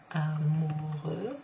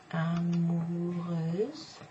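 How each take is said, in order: First: Amoureux drawn out, open eu at the end; masculine ending. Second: Amoureuse very drawn out, closing on z; feminine ending. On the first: Teacher spelling out the masculine word, amoureux slow with open ending. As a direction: stretch amoureux slowly, no final z. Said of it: "amoureux is the masculine". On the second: Teacher spelling out the feminine word, Amoureuse slow with z ending. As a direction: stretch Amoureuse slowly into a buzzed z. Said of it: "amoureuse is the feminine". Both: Shown as a demonstration.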